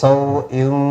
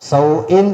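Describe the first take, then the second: First: The final n sound is hidden and nasalized. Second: The final n sound is pronounced clearly. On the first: The speaker calls it right. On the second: The speaker calls it wrong.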